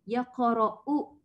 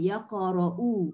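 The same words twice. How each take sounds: First: The vowel is short, closed by a glottal stop. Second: The vowel is lengthened to two counts. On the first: This is the original form before the hamzah is replaced. "dia itu asalnya" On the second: The hamzah is replaced by a lengthening letter. "Jadi dua"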